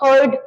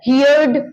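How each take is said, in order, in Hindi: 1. स्वर 'her' जैसा है, सिर्फ़ एक सिलेबल। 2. स्वर 'here' जैसा है, उसके बाद 'd'। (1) "सेकेंड फॉर्म हर्ड और हर्ड होगा" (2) "ना कि हियर, हियर्ड"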